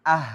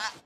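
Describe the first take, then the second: First: "Ah" with breath flowing on after the vowel; unstopped, airy end on "Ah"; flowing sound. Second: "ah" stopped short, no airflow after it; wrong-example "ah" with a sudden stop; cut-off sound. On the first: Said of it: "Ah, mengalir". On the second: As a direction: choke off "ah" abruptly. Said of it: "Bukan ah". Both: Shown as a demonstration.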